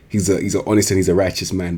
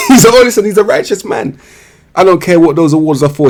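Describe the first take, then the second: First: Said in the usual way. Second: High, louder through laughter; laughing. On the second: Real, not acted. Praising an honest player while cracking up. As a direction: repeat it cracking up. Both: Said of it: "repeats it laughing".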